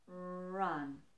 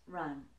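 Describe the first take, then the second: First: The word is drawn out slowly. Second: The word is said at normal speed. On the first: "if I were to slow the word down" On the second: "when I speak normally at normal pace"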